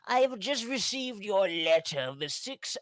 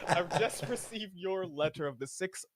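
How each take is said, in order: First: It is read in a silly put-on voice. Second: It is read in a normal speaking voice. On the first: "I'm gonna do my silly ass voice" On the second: "I'm not gonna do it in a whole voice"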